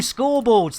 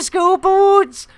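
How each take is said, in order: First: It is said in a plain accent. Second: It is said in a Welsh accent. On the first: The speaker calls it right. "No, scoreboards, there we go" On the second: The speaker calls it wrong. "that was terrible Welsh accent"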